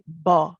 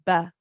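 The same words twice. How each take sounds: First: The consonant is said heavy, with a full back sound. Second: The consonant is said light, without a back sound. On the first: The speaker calls it wrong. "the kind of common mistake that you may get with the ba here is that people will say ba" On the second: The speaker calls it right. "pronounce ba as a light letter"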